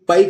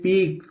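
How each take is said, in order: First: The vowel sounds like 'eye'. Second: The vowel sounds like 'ee'. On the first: The speaker calls it wrong. "इसको भी पाइक नहीं पढ़ेंगे" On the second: The speaker calls it right. "इसको भी पढ़ेंगे पीक"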